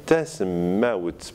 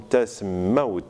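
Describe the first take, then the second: First: "tasmaout" sounded out as it is spelled; written form. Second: "tasmaout" slowly, with a long doubled t; geminated T. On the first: Teacher dictating for transparency, "tasmaout" as written. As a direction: give each part of "tasmaout" for spelling. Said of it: "On va écrire". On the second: Teacher showing assimilation, "tasmaout" with a geminated t. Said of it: "la prononciation T. Géminé". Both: Shown as a demonstration.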